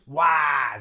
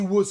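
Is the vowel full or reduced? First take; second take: full; reduced. First: The vowel is a full short A sound. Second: The vowel is reduced to a schwa. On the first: The speaker calls it wrong. "we don't use was. We don't use the short A" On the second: The speaker calls it right. "We use schwa"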